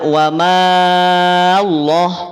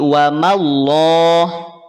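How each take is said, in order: First: The vowel after the m is drawn out long. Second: The vowel after the m is kept short. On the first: The speaker calls it wrong. "tidak wa mallah" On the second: The speaker calls it right. "tapi wa mallah"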